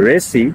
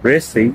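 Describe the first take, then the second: The two takes are said the same way.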